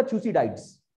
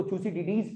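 First: थ्यूसिडाइड्स ending in "-daids"; थ्यूसिडाइड्स, last part rhyming with "tides"; alternative pronunciation. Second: थ्यूसिडिडीज ending in "-di-deez"; थ्यूसिडिडीज, last part split into two syllables, "di-deez"; alternative pronunciation. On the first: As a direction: say थ्यूसिडाइड्स with a final "eye" sound. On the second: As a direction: say थ्यूसिडिडीज with a long final "ee". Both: Shown as a demonstration. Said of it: "कुछ लोग उसको थ्यूसिडिडीज पढ़ते हैं".

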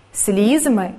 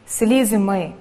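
First: Слізьми with the stress on Слізь; Слізьми pronounced SLIZ-my; stress on first syllable. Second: Слізьми with the stress on ми; слізьми pronounced sliz-MY; stress on last syllable. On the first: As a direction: hit the opening syllable of Слізьми. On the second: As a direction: put the weight on the final syllable of слізьми. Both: Shown as a demonstration. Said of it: "Слова із подвійним наголосом".

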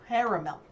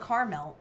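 First: Caramel as CARE-uh-mel, loud and falling; others' pronunciation. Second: Caramel as KAR-mel; own pronunciation. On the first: Retold or imitated. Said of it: "people in my area try to tell me it's". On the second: Shown as a demonstration. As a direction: say caramel in two syllables, starting like car. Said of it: "but I call it caramel".

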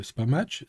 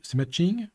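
First: Said in the usual way. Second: Matching said higher, with a rise; stress on matching. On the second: Shown as a demonstration. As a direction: lift the word matching up.

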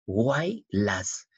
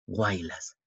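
First: "Guaylas" in two beats, guay, las; "Guaylas" spaced out as guay - las; syllable separation. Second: Said in the usual way. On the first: Shown as a demonstration. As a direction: split "Guaylas" with a gap before las. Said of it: "separar las sílabas así". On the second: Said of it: "separar las sílabas".

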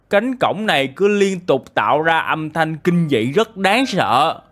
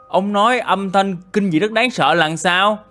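First: Slow, lightly acted villager complaint; angry villager. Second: Higher, baffled questioning; puzzled echo. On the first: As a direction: complain slowly, with mild anger. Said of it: "Dân làng rất giận dữ". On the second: Acted. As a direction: repeat it back, asking for an explanation. Questions villager's words back.

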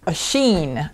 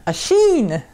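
First: Said in the usual way. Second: Sheen said higher and louder with a falling end; stress on sheen. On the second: Shown as a demonstration. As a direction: punch the word sheen up high.

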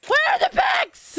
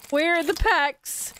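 First: High-pitched panicked shout; high, frantic outcry; frantic yell. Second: Said in the usual way. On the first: Real, not acted. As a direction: yell it, demanding more. Repeats it as a yell.

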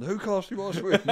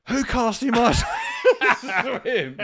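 First: Repeating the shout through laughter; laughing repeat. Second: Loud high yell breaking into a laugh; shouted quote. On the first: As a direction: say it again while cracking up. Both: Retold or imitated. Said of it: "He went".

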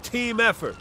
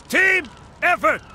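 First: Said in the usual way. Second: TEAM punched higher, then EFFORT as a separate beat; emphatic repeat. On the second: Acted. Fire officer drilling the new recruit, emphatic TEAM EFFORT.

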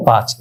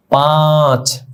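First: Said in the usual way. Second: পাঁচ with the vowel held long, Urdu style. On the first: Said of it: "এক, দুই, তিন দ্রুত বলে ফেলি". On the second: Shown as a demonstration. Teacher showing students the drawn-out Urdu পাঁচ. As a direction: stretch পাঁচ out slowly with a falling tune. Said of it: "উর্দুতে কিন্তু টানতে হবে".

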